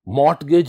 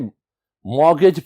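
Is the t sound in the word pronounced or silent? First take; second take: pronounced; silent. First: The t sound in the middle is pronounced. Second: The t sound in the middle is silent. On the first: The speaker calls it wrong. "मॉर्टगेज नहीं पढ़ा जाएगा इसे" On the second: The speaker calls it right. "इसमें टी silent है, इसे मॉर्गेज पढ़ा जाएगा"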